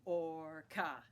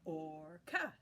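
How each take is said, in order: First: Or-ca in two pushes; two beats. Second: Or-ca in two pushes once more; two beats again. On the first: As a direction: say orca as two clear beats. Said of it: "push down the button for orca". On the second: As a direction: repeat orca as two beats. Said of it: "Try it again". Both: Shown as a demonstration.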